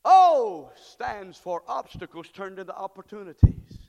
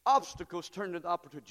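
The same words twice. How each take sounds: First: Proclaimed. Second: Said in the usual way. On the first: Shown as a demonstration.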